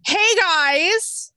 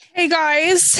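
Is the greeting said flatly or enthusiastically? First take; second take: enthusiastically; flatly. First: The greeting is said with enthusiasm. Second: The greeting is said flatly.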